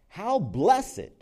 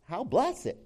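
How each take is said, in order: First: "How blessed" high and loud, falling at the end; stress on how blessed. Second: "how blessed" lifted higher, ending on a rise; rising how blessed. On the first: Pastor savours the psalm's words for the congregation, "How blessed" high and falling. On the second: Pastor repeats the psalm line to the congregation, "how blessed" rising. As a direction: repeat "how blessed" soaring upward in wonder. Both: Shown as a demonstration.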